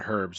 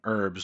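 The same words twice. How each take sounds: First: It starts with an h sound. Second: It starts without an h sound. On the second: "I don't know why we don't pronounce the H"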